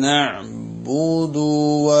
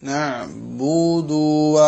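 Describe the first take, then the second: Both takes have the same delivery.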